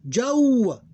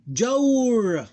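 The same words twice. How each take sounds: First: Jawra high and loud, long "jaw", pause, short "ra"; diphthong, two syllables. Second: Jawr high and loud, long glide closed on R; sukoon ending. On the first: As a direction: split Jawra after the held glide. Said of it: "Two syllables". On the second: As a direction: draw Jawr out as one syllable. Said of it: "This become pronounced with sukoon". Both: Shown as a demonstration.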